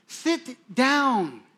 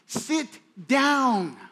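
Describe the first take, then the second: The two takes are said the same way.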